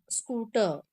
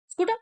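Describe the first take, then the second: First: "scooter" said right with a long oo; correct pronunciation. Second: "Scooter" said wrongly as a question; mock the wrong "Scooter"; wrong pronunciation. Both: Shown as a demonstration. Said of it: "No, scooter".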